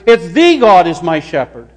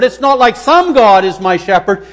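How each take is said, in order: First: THE punched as a long "thee"; stress on THE. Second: SOME punched as the rejected word; stress on SOME. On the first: Preacher naming the one true God, stress on THE. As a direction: hit "the" hard, meaning the only one. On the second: Preacher ruling out just any god, stress on SOME. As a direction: hit "some" hard, dismissing it. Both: Shown as a demonstration. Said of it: "Let's emphasize the".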